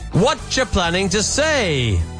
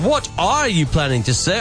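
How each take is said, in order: First: 'What are you' is blended into 'whatcha'. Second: Each word of 'what are you' is said separately. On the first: "that native accent there" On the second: "You could say"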